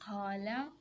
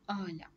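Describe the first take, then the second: First: The word begins with a deep q sound. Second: The word begins with a glottal stop. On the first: "به جای اینکه بگن قالا" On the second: "مصری میگفت به قاله میگفت آلا"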